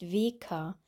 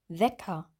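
First: The first vowel is a closed e sound. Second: The first vowel is an open e sound. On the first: The speaker calls it wrong. "Wir sagen nicht Weker" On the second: The speaker calls it right. "Bei dem E geht der Unterkiefer weiter auf"

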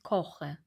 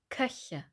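First: The first vowel is a back rounded vowel. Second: The first vowel is a front rounded vowel. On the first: The speaker calls it wrong. "Wir sagen nicht koche" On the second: The speaker calls it right. "Die Zunge geht nach vorne, nicht nach hinten"

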